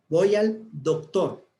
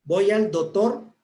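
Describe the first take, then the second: First: "voy al doctor" slow, with every sound and the c of "doctor" said fully; clear diction. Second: "Voy al doctor" said slowly with "doctor" as "dotor", the c dropped; sloppy diction. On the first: Teacher demonstrating the correct, complete pronunciation. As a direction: pronounce "doctor" crisply with its c, slowly. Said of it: "Tengo que pronunciar todas las palabras". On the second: Teacher showing the class a wrong pronunciation, "doctor" as "dotor". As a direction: drop the c in "doctor" so it sounds like "dotor". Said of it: "estoy utilizando una mala dicción".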